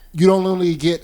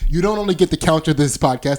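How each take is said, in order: First: The words are mumbled and unclear. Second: The words are said clearly and distinctly.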